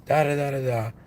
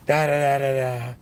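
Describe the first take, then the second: No difference in how they are said.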